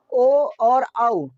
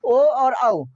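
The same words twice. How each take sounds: First: ओ and औ stretched very slowly, each vowel held long; drawn-out vowel demo. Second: Said in the usual way. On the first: Shown as a demonstration. Teacher to class, showing how the vowels sound, very slow. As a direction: draw out ओ and औ so students feel the lips round. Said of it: "ओ बोलते हैं हम लोग". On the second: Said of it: "इसका उच्चारण स्थान कौन सा है?".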